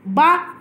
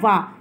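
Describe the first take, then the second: First: It begins with a b sound. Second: It begins with a v sound. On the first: The speaker calls it wrong. "गलत हो गया" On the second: The speaker calls it right. "Correct जो है वा"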